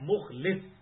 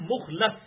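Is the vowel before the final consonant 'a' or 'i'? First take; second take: i; a. First: The second-to-last vowel is 'i', as mukhlis. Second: The second-to-last vowel is 'a', as mukhlas. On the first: One who offers sincere devotion. "مخلص ہوتا ہے اخلاص پیش کرنے والا اپنے رب کے حضور" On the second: One who has been chosen and set apart. "مخلص یہ ہے کہ جسے اللہ تعالیٰ خاص کر لے اپنے لیے"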